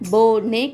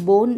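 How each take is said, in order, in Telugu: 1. n తర్వాత అదనపు అచ్చు ధ్వనితో ముగుస్తుంది. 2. అచ్చు లేకుండా n తోనే ముగుస్తుంది. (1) "బిఓఎన్ఈ యొక్క ఉచ్చారణ బోనే కావాలి" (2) "కానీ అలా కాదు మిత్రులారా"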